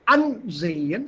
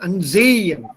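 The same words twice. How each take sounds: First: The stress is on the first syllable. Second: The stress is not on the first syllable. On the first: The speaker calls it right. "the accent is on the first syllable or the prefix itself" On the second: The speaker calls it wrong. "and not"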